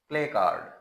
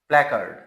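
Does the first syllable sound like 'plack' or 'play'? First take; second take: play; plack. First: The word sounds like 'play card'. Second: The word sounds like 'plack-erd'. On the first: The speaker calls it wrong. "आमतौर पे प्ले कार्ड बोला जाता है" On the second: The speaker calls it right. "It's correct pronunciation is प्लैकर्ड"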